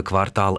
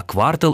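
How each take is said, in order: First: Квартал stressed on the last syllable, квар-ТАЛ; final-syllable stress. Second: Квартал stressed on the first syllable, КВАР-тал. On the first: Retelling a myth about city blocks, квартал with final stress. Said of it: "Существует миф о том". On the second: Citing the supposed accountants' term, квартал with first-syllable stress. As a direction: hit квар- in квартал and reduce the ending. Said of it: "это якобы бухгалтерский термин". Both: Shown as a demonstration.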